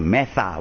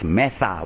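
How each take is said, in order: First: The middle consonant is a th sound. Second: The same.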